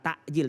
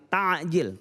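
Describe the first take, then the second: First: The middle consonant is a glottal stop. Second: The middle consonant is a pharyngeal ain sound. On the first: It means delaying the breaking of the fast. The speaker calls it wrong. "Kalau takjil itu memperlambat. Kalau pakai hamzah" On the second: It means hastening the breaking of the fast. The speaker calls it right. "tapi kalau ain mempercepat"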